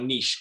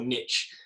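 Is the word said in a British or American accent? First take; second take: British; American. First: It is said in a British accent. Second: It is said in an American accent.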